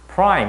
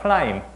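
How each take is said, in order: First: The word has a clear English R sound. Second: The word is said without that R sound. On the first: "이렇게 알 발음 하는 경우도 있지만" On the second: "플라임 이렇게 하는 경우도 있기 때문에"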